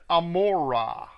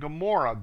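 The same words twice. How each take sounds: First: It is said with a Hebrew pronunciation. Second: It is said with an English pronunciation. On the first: The speaker calls it right. "If you read the Hebrew, it's" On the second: The speaker calls it wrong. "That's not how it's pronounced"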